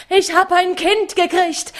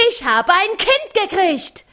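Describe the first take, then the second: First: "hab" punched, high joyful cry; joyful shout. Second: "Kind" punched, high and falling; joyful shout. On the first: Mattes tells his robbers of his newborn, stressing "hab", high and loud. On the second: Mattes repeats his news, stressing "Kind", high and joyful. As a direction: land on "Kind" with delight. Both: A narrator's reading. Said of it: "schrie dabei wie närrisch".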